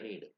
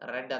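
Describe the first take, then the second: First: The vowel is long, like 'reed'. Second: The vowel is short, like 'red'. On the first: An instruction to read something. "Means you are instructed to റീഡ് something" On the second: The reading happened in the past. "റീഡിന്റെ past tense റെഡ് എന്നാ പറയാം, ഉച്ചാരണം മാറി"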